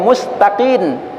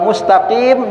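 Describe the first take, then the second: First: The word ends with an n sound. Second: The word ends with an m sound. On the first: The speaker calls it wrong. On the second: The speaker calls it right.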